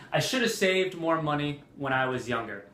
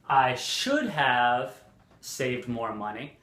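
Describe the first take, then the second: First: SHOULDA as one word; "shoulda" run into the sentence with no h; casual, flowing "shoulda"; reduced spoken form. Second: SHOULD HAVE slow, as two full words; deliberate "should have" with the h sounded; careful, slow, unreduced "should have"; correct full form. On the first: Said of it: "many people will say". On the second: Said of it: "It's correct". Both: Shown as a demonstration.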